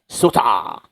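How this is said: It is said as two Japanese-style syllables. "kasi may malakas yung accent ng Japanese"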